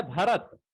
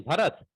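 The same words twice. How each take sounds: First: भरत with a clean unaspirated त at the end; correct pronunciation. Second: भरत with an aspirated थ at the end; hasty wrong pronunciation. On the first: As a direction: end भरत on a crisp plain t. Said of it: "शुद्ध तो है भरत". (भरत का शुद्ध उच्चारण, अंत में त) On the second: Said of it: "हम लोग जल्दी में भरत कह देते हैं". (जल्दी में भरत को थ के साथ बोलना) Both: Shown as a demonstration.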